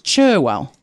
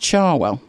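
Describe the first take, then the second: First: The first vowel sounds like the vowel in 'her'. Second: The first vowel sounds like the vowel in 'car'. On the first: The speaker calls it wrong. "it's spelt with an E, so you would think it was Cherwell" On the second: The speaker calls it right. "but it's pronounced Charwell"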